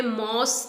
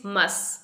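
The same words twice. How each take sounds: First: मॉस with open o, like "moss"; wrong pronunciation. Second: मस as "muss", short uh; correct pronunciation. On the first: Teacher warning learners, मॉस like "moss". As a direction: say मॉस with a rounded vowel. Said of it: "आपने मॉस नहीं बोलना है". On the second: Teacher correcting learners, मस as "muss". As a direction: say मस softly with unrounded vowel. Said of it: "it is मस". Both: Shown as a demonstration.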